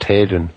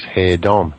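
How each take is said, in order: First: The last syllable has an E vowel sound. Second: The last syllable has an O vowel sound. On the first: This is how the family says it. "pronounced with an E" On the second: This follows the spelling. "spelt with an O"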